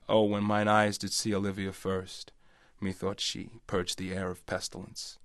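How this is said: It is spoken in an American accent. "And then I guess as an American"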